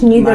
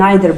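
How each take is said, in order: First: It is said with an American pronunciation. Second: It is said with a British pronunciation. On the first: "neither American" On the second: "Neither British"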